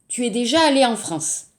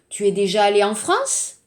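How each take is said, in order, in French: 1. La voix descend à la fin. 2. La voix monte à la fin. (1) "la phrase euh, affirmative" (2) "on va seulement donc faire attention à l'intonation"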